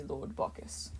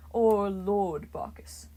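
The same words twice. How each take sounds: First: Breathless whispered Lord Bacchus, much softer; a god mimicking a frightened worshipper's plea; terrified whisper. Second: Slow, lordly Lord Bacchus; a wine god savoring his own title; grand title, said slowly. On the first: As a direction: whisper it like a cowering mortal. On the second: A narrator's reading.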